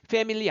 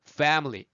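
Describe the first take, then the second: First: It is said with Korean-style syllables. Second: It is said with English-style syllables. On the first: The speaker calls it wrong. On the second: The speaker calls it right.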